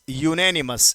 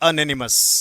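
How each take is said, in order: First: The word starts with a 'you' sound. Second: The word starts with an 'uhn' sound. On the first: The speaker calls it right. "इसका सही pronunciation होता है यूनेनिमस" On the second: The speaker calls it wrong. "कई लोग एनेनिमस पढ़ते हैं, अनएनिमस, जो गलत होता है"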